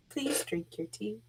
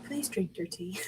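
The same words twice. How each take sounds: First: Soft hushed urging; quiet coaxing plea. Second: Hushed whisper; breathy urging whisper. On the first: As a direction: whisper a pleading request. Character urging tea again. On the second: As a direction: whisper it like a secret plea. Character urging tea, whispered. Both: Acted.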